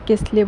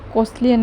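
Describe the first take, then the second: First: The first vowel sounds like 'e'. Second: The first vowel sounds like 'o'. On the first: "আসলে আমি কেসলিয়ে কসলিয়ে দুটোই উচ্চারণ করে থাকি" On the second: "কসলিয়ে না কেসলিয়ে বলে কোনটা"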